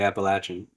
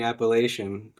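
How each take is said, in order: First: The middle consonant is a strong ch sound. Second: The middle consonant is soft, not a strong ch. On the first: This is how it is said in the south. "down here it's definitely Appalachian" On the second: This is how it is said in the north. "I grew up saying Appalachian up north"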